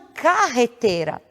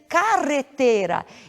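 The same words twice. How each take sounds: First: The r is a guttural throat sound. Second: The r is a trilled tongue sound. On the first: The speaker calls it wrong. "e não carretera ... viria com a grafia com G ou com J" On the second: The speaker calls it right. "deve ser carretera"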